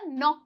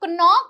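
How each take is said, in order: First: The initial k sound is silent. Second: The initial k sound is pronounced. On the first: The speaker calls it right. "यहाँ पे जो के है वो silent है" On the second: The speaker calls it wrong. "इसे नॉक नहीं बोलते हैं"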